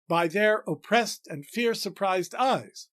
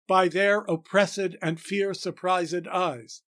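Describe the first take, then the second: First: The line is said with nine syllables. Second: The line is said with eleven syllables. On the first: "Only four feet again" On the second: "puts an annoying extra unstressed syllable in the middle of the line"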